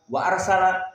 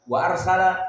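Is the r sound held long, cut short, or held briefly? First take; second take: cut short; cut short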